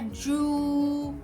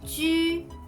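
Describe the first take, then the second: First: The vowel is a rounded back 'oo' sound. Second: The vowel is a rounded front 'u' sound. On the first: The speaker calls it wrong. "C'est pas ju, ... Non, c'est pas un ou" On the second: The speaker calls it right. "c'est ju, c'est U"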